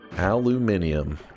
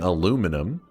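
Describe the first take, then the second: First: It is said with five syllables, British style. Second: It is said with four syllables, American style. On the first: "from like the U K and stuff say" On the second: "instead of saying aluminum"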